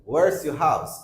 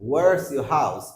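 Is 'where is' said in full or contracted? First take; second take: contracted; contracted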